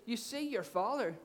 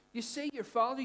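First: Said in the usual way. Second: See lifted high with a rising tune; stress on see. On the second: Shown as a demonstration. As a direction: lean on see, let it rise.

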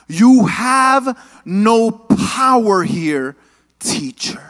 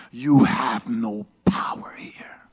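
First: Slow, drawn-out menacing line; a hint of a possessed girl; demon voice. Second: Low, slow whispered snarl; scary demon voice. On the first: Possessed Lilith defying Nicodemus, slow and menacing. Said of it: "she says these words". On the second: Acted. Possessed girl threatening Nicodemus, low whispered menace. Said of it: "She's like".

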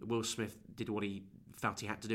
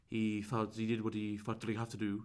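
First: Said in the usual way. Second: Mock the odd posh LA accent, understated; odd posh LA-style accent. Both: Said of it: "and he said like that".

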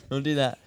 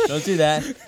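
First: Said in the usual way. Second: Louder, firmer warning; really mean it this time; emphatic. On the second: Shown as a demonstration.

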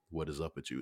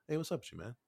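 First: Said in the usual way. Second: Much higher put-on voice; voiced casual chat. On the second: The Wire people chatting to the actor, high mock voice. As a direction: imitate a casual greeting, pitched way up. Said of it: "They were like".

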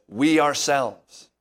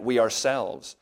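First: "We" slow and loud, leaning on each word; slow down and punch "We ourselves"; stress on we. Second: Said in the usual way. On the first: Shown as a demonstration. Pastor showing the congregation how the ESV stresses we, slow and loud. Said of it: "This is emphatically saying we". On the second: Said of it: "Paul is especially emphasizing the we".

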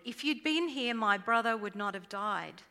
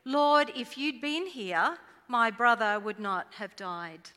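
First: Mild demand. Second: Anguished plea. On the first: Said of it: "Martha demanded". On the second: Mary kneeling at Jesus' feet, crying out her loss. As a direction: throw your grief at him. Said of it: "her turn to say". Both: Retold or imitated.

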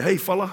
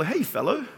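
First: "fella" clipped to fel-luh, easy and modern; casual fella. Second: Mock-formal "Hey, fellow"; old-fashioned fellow. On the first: Pastor showing the congregation how we'd say it now, casually. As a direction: say "Hey, fella" like everyday slang. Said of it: "we probably would say". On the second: Pastor teasing the congregation about the old word, said stiffly. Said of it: "when's the last time you called somebody a fellow?". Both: Shown as a demonstration.

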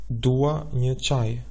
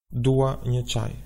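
First: Slow, deliberate Albanian phrase; slow model answer. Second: Said in the usual way. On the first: Shown as a demonstration. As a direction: spell it out slowly for learners. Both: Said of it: "How would you say".

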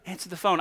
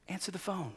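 First: Said in the usual way. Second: Hushed plea, barely voiced; urgent whisper. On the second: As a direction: breathe it under the breath.

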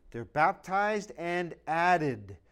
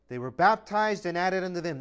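First: Drawn out, weight on baptized; slow emphasis. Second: Said in the usual way. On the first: Acted. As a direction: let baptized sink in slowly. Preacher slowing key phrase.

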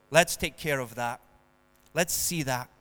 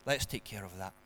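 First: Lower, gentle reassuring doctor; calm doctor. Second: Much softer and lower, unhurried reassurance; calm doctor. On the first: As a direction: soothe like a calm doctor tending a cut. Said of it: "would calmly say". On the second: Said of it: "and very calmly say". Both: Acted.

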